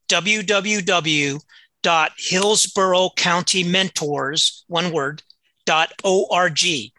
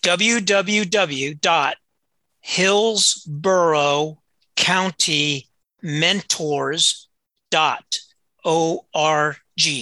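First: It is said at normal, quicker speed. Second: It is said very slowly.

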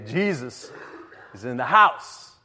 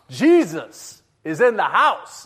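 First: It is said a bit louder. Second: It is said very loudly.

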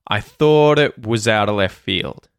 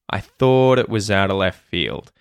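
The two takes are said the same way.

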